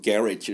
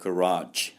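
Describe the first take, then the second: First: The stress is on the first syllable. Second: The stress is on the second syllable. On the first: The speaker calls it wrong. "첫 음절에 액센트 넣고" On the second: The speaker calls it right. "아니고 garage가 됩니다"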